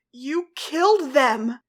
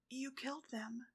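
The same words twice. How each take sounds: First: Slow, loud accusing shout; loud retort. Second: Faint, hushed accusation; almost too quiet to hear; barely audible. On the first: Ladybug shouting back at Cat Blanc, loud and slow. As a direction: hurl it back at him. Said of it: "Ladybug retorted louder". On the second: Ladybug accusing Cat Blanc amid flames, barely audible. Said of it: "Ladybug's voice could barely be heard". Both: A narrator's reading.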